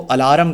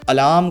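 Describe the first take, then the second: First: It is said with an extra vowel sound added. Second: It is said without any added vowel sound. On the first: The speaker calls it wrong. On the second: The speaker calls it right.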